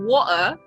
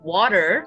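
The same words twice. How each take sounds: First: It is said in a British accent. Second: It is said in an American accent.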